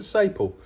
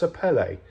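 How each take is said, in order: First: Sapele said short, without a final "ay"; habitual mispronunciation. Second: Sapele in three syllables, suh-PELL-ay; corrected pronunciation. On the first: Builder admits how he always called the wood, sapele mispronounced without its last vowel. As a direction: say sapele the anglicised way, ending on the L. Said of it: "I always called it". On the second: Builder gives the name he has since learnt, sapele said suh-PELL-ay. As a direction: stress the middle of sapele and end it on "ay". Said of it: "it's supposed to be pronounced". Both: Shown as a demonstration.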